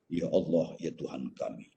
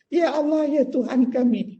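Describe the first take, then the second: First: It is said in a deep bass voice. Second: It is said in a thin, non-bass voice.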